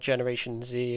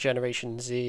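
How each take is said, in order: First: The letter Z is pronounced 'zee'. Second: The letter Z is pronounced 'zee'.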